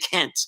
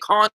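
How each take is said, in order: First: It is said with an American accent. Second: It is said with a British accent. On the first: "Now we're going to say can't" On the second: "we're not going to say can't anymore"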